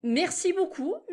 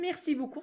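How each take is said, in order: First: Merci beaucoup drawn out slowly, higher pitch; slow model take. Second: Said in the usual way. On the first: Shown as a demonstration. Teacher models the thanks slowly for students.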